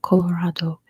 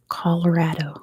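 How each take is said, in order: First: The first syllable does not sound like 'collar'. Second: The first syllable sounds like 'collar'. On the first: The speaker calls it wrong. "It's not Colorado" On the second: The speaker calls it right. "like a collar, like a shirt collar"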